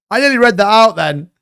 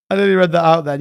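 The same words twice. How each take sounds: First: Laughing. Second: Said in the usual way. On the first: Real, not acted.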